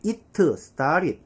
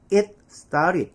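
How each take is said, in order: First: "It started" as "it-tuh star-rid"; '이트'로 읽기. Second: "It started" as "it, star-rid", stopped T; 받침 살린 '잇'. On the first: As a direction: add a vowel after the T of "It". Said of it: "자랑스럽게". ('It'을 '이트'로, 'started'는 '스따릿') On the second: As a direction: close "It" on a T, then "started". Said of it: "이렇게 읽으셨어요?". ('It'을 '잇'으로 끊고 '스따릿') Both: Shown as a demonstration.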